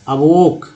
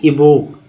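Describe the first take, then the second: First: The first vowel is a short 'a' sound. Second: The first vowel is an 'ee' sound. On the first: The speaker calls it right. "शुद्ध उच्चारण क्या होगा, अवोक" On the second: The speaker calls it wrong. "न कि इवोक"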